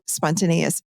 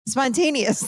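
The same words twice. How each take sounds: First: Spontaneous tripped over, syllables garbled as spon-ta-ne-i-dious; fumbling spontaneous mid-word; stumbled word. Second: Spontaneous said cleanly as spon-TAY-nee-us, a touch higher; getting Spontaneous right at last; careful retry. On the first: Speaker tripping over a hard word while explaining kids, garbled pronunciation. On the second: Speaker finally nailing the word after stumbling, careful correct pronunciation. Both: Real, not acted. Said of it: "Sorry, I couldn't say that".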